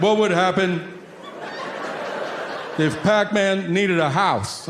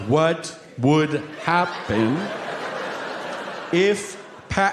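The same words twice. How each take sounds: First: Put-on higher, eager kid voice; kid's question. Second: Very slow, each word drawn out. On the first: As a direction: ask it like an earnest little boy. Son asks Pac-Man question. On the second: Retold or imitated. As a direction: spell it out slowly like to a dummy. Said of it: "he slows it down for me".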